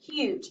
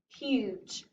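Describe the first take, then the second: First: The word is read very fast. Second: The word is read slowly.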